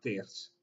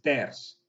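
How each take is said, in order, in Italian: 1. La vocale e si pronuncia chiusa. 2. La vocale e si pronuncia aperta. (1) "non diciamo il ters" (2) "è il ters"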